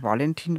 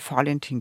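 First: The name begins with a V sound. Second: The name begins with an F sound. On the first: The speaker calls it wrong. "und nicht Valentin" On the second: The speaker calls it right. "weil sonst kommt man nicht auf Fallen"

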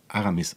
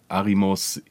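First: The vowels are a, a, i. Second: The vowels are a, i, o. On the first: The name is said correctly. The speaker calls it right. "ich heiße ja Aramis eigentlich" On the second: The name is said incorrectly. The speaker calls it wrong. "keiner kann diesen Vornamen richtig aussprechen"

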